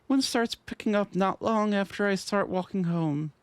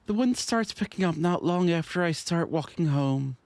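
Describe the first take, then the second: First: It is read in a slightly higher character voice. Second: It is read in the speaker's normal voice.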